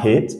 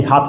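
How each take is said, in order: First: Hate with an "ay" vowel; hate, the A as "ay", not "ah"; English long A. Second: Hat with a short open "ah"; hat, the A kept open and short; French-like A. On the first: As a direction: say hate with A as the English letter name. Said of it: "on dit pas hate". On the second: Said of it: "Pourquoi on dit hat". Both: Shown as a demonstration.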